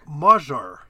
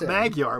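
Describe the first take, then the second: First: The middle consonant is a soft j sound. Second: The middle consonant is a hard g sound. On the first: The speaker calls it right. "it's pronounced like we do a soft J sound" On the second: The speaker calls it wrong. "it's not Magyar"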